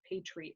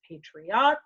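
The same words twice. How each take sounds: First: The last syllable sounds like 'ette'. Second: The last syllable sounds like 'ot'. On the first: The speaker calls it wrong. "It's not patriot, like drum majorette" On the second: The speaker calls it right. "That is the proper way to pronounce it"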